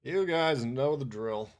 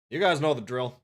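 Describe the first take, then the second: First: Slow, deliberate, stretched out. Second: Loud. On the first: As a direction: drawl it out slowly. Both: Shown as a demonstration.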